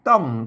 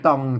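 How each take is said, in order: First: The syllable is said on a falling tone. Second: The syllable is said on a low tone. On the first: "ใส่ไม่โทต้องนะครับ" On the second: "ใส่ไม่เอก"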